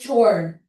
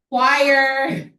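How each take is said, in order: First: The word sounds like 'chore'. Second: The word sounds like 'kwire'. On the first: The speaker calls it wrong. "Sino dito magsasabing chore?" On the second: The speaker calls it right. "mali yung pagkakabasa nyo"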